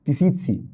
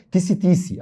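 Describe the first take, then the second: First: "تيسيتسي" said tee-see-tsee, with the ts cluster before the final i; correct pronunciation. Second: "تيسي تيسي" as a short doubled tisi tisi, dropping the ts cluster; teacher mimics how other teachers shorten "تيسي تيسي"; common wrong pronunciation. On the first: Teacher to students, correcting the name with "تيسيتسي" as tisitsi. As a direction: give "تيسيتسي" its full tisitsi sound, ts clearly voiced. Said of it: "نطقها الصح تيسيتسي". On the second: Teacher to students, showing the wrong "تيسي تيسي" said as tisi tisi. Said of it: "بس هي نطقها الصح تيسيتسي".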